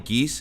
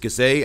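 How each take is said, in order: First: The name is said as one syllable. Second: The name is said as two syllables. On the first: The speaker calls it wrong. "some people they may actually pronounce it as Barney Geese" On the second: The speaker calls it right. "but it's Gazay"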